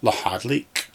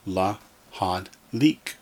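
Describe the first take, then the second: First: "la, had, leak" run together as one word; put together. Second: "la, had, leak" as three pieces with gaps; syllable by syllable. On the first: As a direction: join la-had-leak without pauses. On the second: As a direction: leave a pause between la, had and leak. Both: Shown as a demonstration. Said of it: "Or put it all together".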